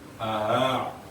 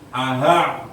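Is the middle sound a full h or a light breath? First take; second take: light breath; full h. First: The middle sound is only a slight breath. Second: The middle sound is a full, clear h. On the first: The speaker calls it right. "sedikit nafas yang keluar" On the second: The speaker calls it wrong. "bukan aha, bukan begitu"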